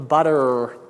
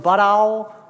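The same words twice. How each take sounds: First: The final R sound is clearly pronounced. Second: The final R sound is not clearly pronounced. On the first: The speaker calls it right. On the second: The speaker calls it wrong.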